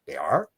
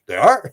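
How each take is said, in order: First: Soft, low surprised "They are?" with a rising end; a quietly puzzled "They are?"; surprised question. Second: Mock surprise. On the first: Retold or imitated. Sherry, hearing that grays come from Zeta, quietly surprised. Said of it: "And she said". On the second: Retelling Sherry's baffled reply, amused mock surprise. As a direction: play up her baffled "They are?".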